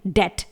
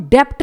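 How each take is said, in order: First: डेट said as debt, no B; डेट, B silent, the right way; correct silent B. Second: डेप्ट with the B heard before T; डेप्ट, B pronounced, to avoid; wrong way with B sounded. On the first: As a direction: say डेट cleanly. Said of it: "इसे हम पढ़ेंगे डेट". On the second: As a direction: say डेप्ट as the mistake. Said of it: "इसे हम डेप्ट नहीं पढ़ेंगे". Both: Shown as a demonstration.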